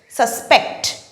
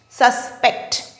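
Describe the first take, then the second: First: The stress is on the second syllable. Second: The same.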